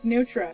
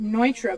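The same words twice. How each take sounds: First: The name is said the way it is spelled. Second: The name is said with its actual pronunciation. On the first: "if you read it, it looks like Neutra" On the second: "you pronounce it Neutra"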